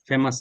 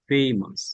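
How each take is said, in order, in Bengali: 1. প্রথম স্বরধ্বনিটি সাধারণ ছোট 'e'। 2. প্রথম স্বরধ্বনিটি 'ay'-র মতো গ্লাইড করে। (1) "ফেমাস না" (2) "এ দিয়ে ওয়ার্ড হলে উচ্চারণ হবে এই"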